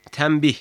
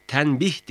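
First: "tembih" with m before the b; assimilated M sound. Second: "Tenbih" with n before the b; wrong N sound. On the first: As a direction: say "tembih" with m, not n. ("tembih", m sesiyle) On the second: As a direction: say "Tenbih" with a clear n. ("Tenbih", n sesiyle) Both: Shown as a demonstration. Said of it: "Tenbih değil, tembih".

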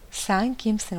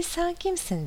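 First: Mild echo, little raised; echoed answer. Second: Understated high shout; mild narrated shout. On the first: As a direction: answer back as a plain, understated echo. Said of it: "Aldığı cevap". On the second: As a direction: call out high, as a storyteller voicing a shout. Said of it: "diye bağırıyor". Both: A narrator's reading.

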